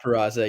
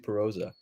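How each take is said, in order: First: The middle vowel sounds like 'ah'. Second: The middle vowel sounds like 'oh'. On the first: The speaker calls it wrong. "not Peraza" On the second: The speaker calls it right. "it's actually Peroza"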